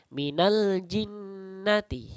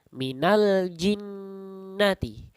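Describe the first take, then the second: First: The l sound before jinnati is clearly pronounced. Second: The same.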